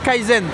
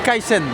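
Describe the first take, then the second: First: The middle consonant is a z sound. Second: The middle consonant is an s sound. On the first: The speaker calls it wrong. "On dit pas Kaizen" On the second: The speaker calls it right. "on dit Kaisen avec un S"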